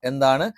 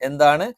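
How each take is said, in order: The two takes are said the same way.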